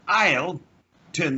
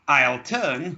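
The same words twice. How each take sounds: First: There is a gap after the contraction. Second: The contraction runs straight into the next word. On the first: The speaker calls it wrong. "we must never, ever, ever leave a space between the contraction and the next word. So we can't say" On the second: The speaker calls it right. "You say"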